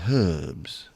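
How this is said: The word starts with an h sound. "And the British say herbs"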